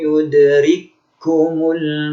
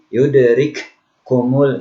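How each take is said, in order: First: The two k sounds merge into one held sound. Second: The two k sounds are pronounced as separate sounds. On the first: The speaker calls it right. "Seolah ini tidak dibaca kaf yang pertama" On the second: The speaker calls it wrong. "jangan dibaca nanti yudrik kumul"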